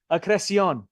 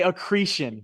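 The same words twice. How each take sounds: First: "Accreción" said the Spanish way, ah-kreh-see-OHN, stressed on the last syllable; "Accreción" pronounced as in Spanish, not English; Spanish pronunciation. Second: "accretion" said the American way, stress on -cre-, ending in -shun; flat American "accretion", uh-KREE-shun; "accretion" in a plain American accent; American pronunciation. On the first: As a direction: roll out "Accreción" Spanish-style, ending in -ción. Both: Shown as a demonstration. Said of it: "if I were to say this with an American accent".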